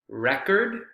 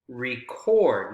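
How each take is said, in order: First: The stress is on the first syllable. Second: The stress is on the second syllable. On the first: It is a noun, a thing like a music record. "like a record that you play" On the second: It is a verb, the act of recording. "Notice how the stress is on the second syllable"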